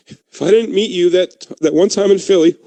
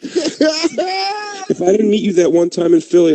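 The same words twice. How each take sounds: First: High, choked-up tribute, played for laughs; hammed-up sentimental toast, slowing at the start; mock emotional toast. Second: High, slow hammed-up crying; mock tearful. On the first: Friend toasting Keith, mock emotional and struggling. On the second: Friend toasting Keith, exaggerated tearful breakdown. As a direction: wail it out as fake sobbing. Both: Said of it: "ooh, this is hard".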